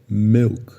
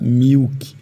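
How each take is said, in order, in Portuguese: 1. A vogal é um i frouxo, próximo de e. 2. A vogal é um som de ee longo e tenso. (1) "o correto... vai estar com esse I, simbolizando que é milk" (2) "muitos falam milk... estão pronunciando aquele I do primeiro conjunto"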